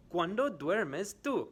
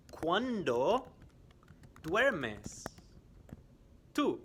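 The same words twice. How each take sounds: First: "¿Cuándo duermes tú?" high and joined up, "cuándo" stressed; high, clear teacher question; quiz question in one go. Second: "¿Cuándo", "duermes", "tú" split by pauses, louder; slow and split up for learners; slow quiz question. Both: Shown as a demonstration. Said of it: "I am going to ask some questions".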